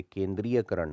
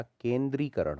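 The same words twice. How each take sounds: First: केंद्रीयकरण as "kendree-ya-karan"; wrong added ya. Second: केंद्रीकरण as "kendree-karan", pitched up; correct, no ya. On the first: Teacher showing a common error, केंद्रीयकरण with extra ya. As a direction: sound a ya inside केंद्रीयकरण. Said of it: "नहीं होता". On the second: Teacher correcting it, केंद्रीकरण without the ya. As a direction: go straight from ree to karan in केंद्रीकरण. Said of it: "होता है". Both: Shown as a demonstration.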